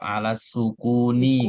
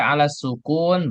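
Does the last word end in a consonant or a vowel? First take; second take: vowel; consonant. First: The last word ends on an -i vowel. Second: The last word ends on a consonant. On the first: "Tapi yang lengkap alas sukuni" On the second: "Anda baca alas sukun, betul"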